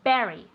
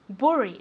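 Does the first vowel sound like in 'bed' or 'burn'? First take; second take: bed; burn. First: The first vowel sounds like in 'bed'. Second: The first vowel sounds like in 'burn'. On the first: The speaker calls it right. "we pronounce it as if it were an E" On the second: The speaker calls it wrong. "We don't say bury"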